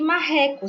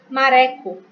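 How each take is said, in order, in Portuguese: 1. O R do meio é forte e gutural. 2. O R do meio é um toque leve.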